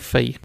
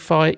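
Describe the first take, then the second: First: It is said the Greek way. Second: It is said the English, non-Greek way. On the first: "you'd say phi" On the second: "you wouldn't say phi"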